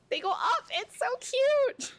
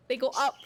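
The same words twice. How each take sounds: First: They go up, squeaked high and sweet to the pet. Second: Said in the usual way. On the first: Real, not acted. Baby talk to the pet.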